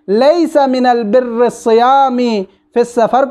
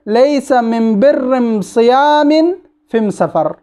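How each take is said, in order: First: The article is pronounced with an L sound. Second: The article is pronounced with an M sound. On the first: This is the common Arabic form. "अलिफ लाम है" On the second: This is how the Himyar tribe says it. "हिम्यर वाले पढ़ते हैं ... अलिफ लाम को अम में तब्दील करके"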